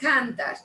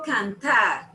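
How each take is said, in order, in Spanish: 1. El acento está en la primera sílaba. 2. El acento está en la última sílaba. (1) "yo no digo cantar" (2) "yo digo cantar, o sea, que la última sílaba la lleva eh, al final"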